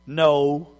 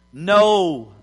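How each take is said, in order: First: A low, glum no; unhappy no. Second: Said in the usual way. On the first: Acted. Disciples answering Jesus with a glum, low no. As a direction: let the no sink, worn out after a fishless night. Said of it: "It wasn't a happy no". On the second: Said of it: "we gotta say that like they said it".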